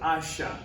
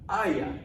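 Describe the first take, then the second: First: The middle consonant is an sh sound. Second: The middle consonant is a y sound. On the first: This is how it sounds further south, in Argentina. "this is going to sound more like an S H" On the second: This is a fairly neutral pronunciation. "something that's relatively neutral"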